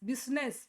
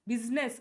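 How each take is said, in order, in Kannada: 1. ಇದು 'biz' ಎಂದು ಶುರುವಾಗುತ್ತದೆ ಮತ್ತು ಎರಡು ಉಚ್ಚಾರಾಂಶಗಳಿವೆ. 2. ಇದು 'biz' ಎಂದು ಶುರುವಾಗುತ್ತದೆ ಮತ್ತು ಎರಡು ಉಚ್ಚಾರಾಂಶಗಳಿವೆ.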